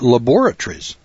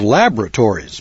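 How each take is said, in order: First: It is said with a British pronunciation. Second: It is said with an American pronunciation. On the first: "but over in England, they've got laboratories" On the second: "where I'm from, we have laboratories"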